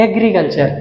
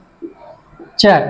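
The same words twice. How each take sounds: First: Said in the usual way. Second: agriculture split up with long pauses; syllable by syllable. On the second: Shown as a demonstration. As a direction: separate the syllables of agriculture for counting. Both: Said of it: "চারটা করে syllable আছে".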